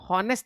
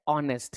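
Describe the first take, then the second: First: The word begins with an h sound. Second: The word begins with a vowel, no h. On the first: The speaker calls it wrong. "इसको हम हॉनेस्ट नहीं पढ़ते हैं" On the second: The speaker calls it right. "यहां पर एच silent रहता है"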